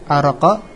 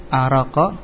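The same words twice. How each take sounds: The two takes are said the same way.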